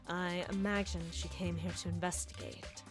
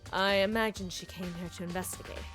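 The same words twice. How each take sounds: First: It is said in a put-on character voice. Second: It is said in the speaker's normal voice. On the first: The speaker calls it right. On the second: The speaker calls it wrong.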